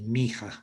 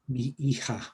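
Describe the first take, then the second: First: The two words merge into one word. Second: The two words are said separately.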